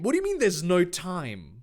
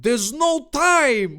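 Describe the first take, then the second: First: Said in the usual way. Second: High, slow, loud cry; hammed-up urgency, words stretched out; Dave. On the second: Dave rejects calling the police, crying out high. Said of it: "Dave said".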